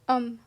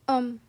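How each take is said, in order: The two takes are said the same way.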